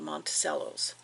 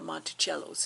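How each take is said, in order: First: The name is pronounced in a plain, ordinary way. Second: The name is pronounced in a fancy, elevated way.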